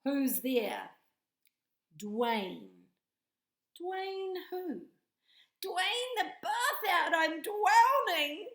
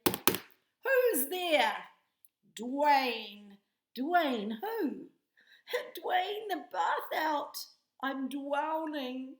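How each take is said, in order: First: High loud panicked drowning voice; hammed-up joke with a squealing punchline; knock knock joke voices. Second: Loud, high hammed-up joke retelling; squealing mock-panic punchline; knock knock joke again. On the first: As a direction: play both sides, end in mock panic. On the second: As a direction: retell it big for the children. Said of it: "let's try that again".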